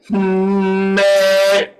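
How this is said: The voice is pushed and hard.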